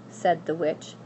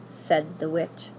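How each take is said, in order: Both takes have the same delivery.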